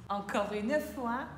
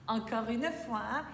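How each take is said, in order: No difference in how they are said.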